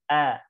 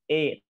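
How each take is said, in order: First: The vowel sounds light, thin and in between. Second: The vowel drifts toward an e sound. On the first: The speaker calls it right. "tapi A, seperti itu" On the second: The speaker calls it wrong. "bukan E"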